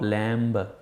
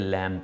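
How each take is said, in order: First: The final b sound is pronounced. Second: The final b sound is silent. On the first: The speaker calls it wrong. "इसको आप लैम्ब नहीं पढ़ेंगे" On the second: The speaker calls it right. "बल्कि लैम्ब पढ़ेंगे"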